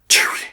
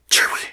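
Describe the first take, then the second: First: It is said in a whisper. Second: The same.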